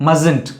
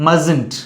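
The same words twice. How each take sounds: Both takes have the same delivery.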